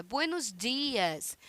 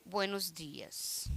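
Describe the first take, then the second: First: Slow, drawn-out good morning with a smile; smiling greeting. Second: Low, soft and slow, grumpy good morning; sullen greeting. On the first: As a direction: greet them kindly, stretching the words. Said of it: "nós precisamos sorrir". (bom dia sorridente e alongado) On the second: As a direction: mumble it with a scowl. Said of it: "de cara amarrada". (bom dia de cara amarrada) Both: Shown as a demonstration.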